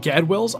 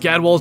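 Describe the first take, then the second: First: The last syllable sounds like 'well'. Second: The last syllable sounds like 'wall'. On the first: The speaker calls it wrong. "I said Gadwell in Classic for years" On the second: The speaker calls it right. "It's definitely Gadwall"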